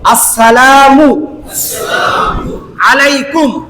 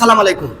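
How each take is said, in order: First: The greeting starts with the full word assalamu. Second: The greeting starts with the clipped word salam. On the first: The speaker calls it right. "শুদ্ধ একটা সালাম আপনাদেরকে একটু শিখায় দেয়" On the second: The speaker calls it wrong. "অনেকে আমরা সালাম দেই সালাম আলাইকুম"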